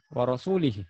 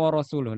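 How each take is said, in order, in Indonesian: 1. Kata ini berakhir dengan vokal 'i'. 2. Kata ini berakhir dengan vokal 'u'. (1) "Ada orang baca begini" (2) "Padahal dhammah"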